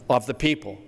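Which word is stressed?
people. The stress falls on the word people. The speaker calls it right. "He emphasized the collective noun, people"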